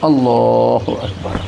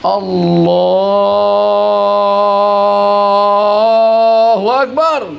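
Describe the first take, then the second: First: The phrase is held for a moderate length. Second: The phrase is drawn out very long. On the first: The speaker calls it right. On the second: The speaker calls it wrong. "panjang sangat"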